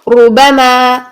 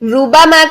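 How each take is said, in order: First: The r is heavy, with a full, thick mouth sound. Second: The r is thin, with the sound coming straight out. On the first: The speaker calls it right. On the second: The speaker calls it wrong.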